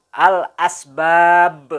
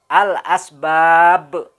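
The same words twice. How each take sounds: Both takes have the same delivery.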